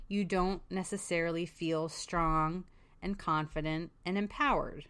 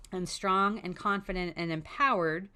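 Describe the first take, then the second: First: Said in the usual way. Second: "strong" hit hard with a rising tune, each word weighed; emphatic repeat. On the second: Shown as a demonstration. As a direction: lean into "strong", "confident" and "empowered" one by one.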